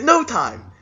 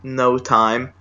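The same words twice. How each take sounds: First: Very high-pitched, expectant catchphrase; imitated hopeful call. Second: Understated, deflated aside to oneself; imitated quiet self-talk. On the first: Man waiting for friends to high five, mock eager high call. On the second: Ignored man consoling himself, imitated in a subdued tone. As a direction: drop the eagerness, as if saying it privately. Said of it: "he's quietly into himself goes".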